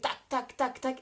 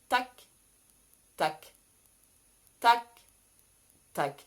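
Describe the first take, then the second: First: The beats come very quickly. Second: The beats come slowly. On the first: It matches racing thoughts. "à cent à l'heure" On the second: It brings the thoughts to slow down. "Ralentir le tempo"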